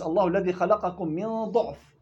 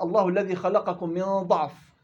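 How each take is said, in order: First: ضعف read with u, as ضُعف; damma reading. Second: ضعف read with an open a, as ضَعف; fatha reading. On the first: Teacher showing the allowed damma reading of ضعف. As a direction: say ضعف with damma on the first letter. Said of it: "وإلا يجوز". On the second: Teacher reading the verse with fatha on ضعف. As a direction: say ضعف with fatha on the first letter, slow. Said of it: "رسم على فتح". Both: Shown as a demonstration.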